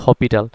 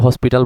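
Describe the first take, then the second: First: The word is said without an s sound. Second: The word is said with an s sound. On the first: This is how other people say it. "কেউ হপিটাল বলে" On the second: This is how some people say it. "কেউ হসপিটাল বলে"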